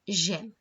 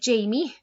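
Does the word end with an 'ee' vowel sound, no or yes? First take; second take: no; yes. First: It is one syllable, ending on the m. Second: It is said like Jamie, ending in ee. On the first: The speaker calls it right. "it's j'aime" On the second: The speaker calls it wrong. "you don't say Jamie or anything like that"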